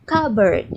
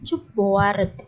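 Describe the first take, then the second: First: Cupboard said "KUB-erd", silent p; correct English cupboard. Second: Cupboard read as spelt, "chook-bo-ard"; mispronounced cupboard. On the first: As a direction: say cupboard louder as "KUB-erd", k sound first. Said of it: "tapi dibacanya". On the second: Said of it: "Ini dibacanya bukan cupboard". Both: Shown as a demonstration.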